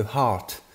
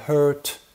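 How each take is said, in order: First: "heart", drawn out with an open "ah" vowel; correct pronunciation. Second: "hurt", drawn out with the vowel of "her"; mispronounced heart. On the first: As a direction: say "heart" slowly and carefully, unlike "hurt". (« heart » bien prononcé, avec un a ouvert) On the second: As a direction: say "hurt" slowly, as a botched "heart". (« hurt », mauvaise prononciation de heart) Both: Shown as a demonstration. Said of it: "une erreur de prononciation".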